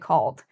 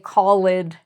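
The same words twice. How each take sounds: First: The ending is blended smoothly into the word. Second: The ending is split off from the word. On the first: The speaker calls it right. "we say" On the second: The speaker calls it wrong. "We don't say"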